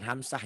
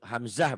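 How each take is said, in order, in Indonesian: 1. Konsonan di tengah adalah bunyi s yang mendesis. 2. Konsonan di tengah adalah bunyi z yang berdengung. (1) "bukan hamsah" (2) "Hamzah bukan hamsah"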